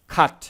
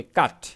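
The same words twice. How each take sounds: First: খাট said with a breathy, aspirated kh at the start. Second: কাট said with a plain k and no puff of air; unaspirated k. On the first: Teacher showing the aspirated sound in খাট. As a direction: start খাট with a strong puff of air on kh. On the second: Teacher contrasting কাট against খাট. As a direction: say কাট with a clean k, no breath after it. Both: Shown as a demonstration. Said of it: "খাটকে যদি বলি কাট".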